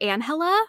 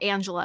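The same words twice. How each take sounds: First: The name is said with a Spanish pronunciation. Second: The name is said with an English pronunciation. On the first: The name was translated more than intended. The speaker calls it wrong. "it might be translating a little bit too much" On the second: The name is meant as ordered. The speaker calls it right.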